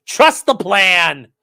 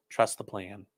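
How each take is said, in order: First: Slow, louder mock slogan; mock proclamation. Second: Softer, quiet repeat of the slogan; mock hushed slogan. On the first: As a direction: drag it out like a grand prophecy. Mocking conspiracy slogan. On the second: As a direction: let it fall soft like a secret. Mocking conspiracy slogan, repeated.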